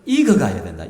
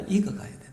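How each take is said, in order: First: 익어가야 landed firmly with a falling close; preacher stating 익어가야 된다 as the key answer; stress on 익어가야. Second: 익어가야 된다 repeated much softer, almost to oneself; a soft afterthought repeating 익어가야 된다; soft echo. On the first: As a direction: give 익어가야 a weighty, falling emphasis. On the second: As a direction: let 익어가야 된다 fall away quietly. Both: Shown as a demonstration. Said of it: "나이가 들수록 뭐 해가야 된다?".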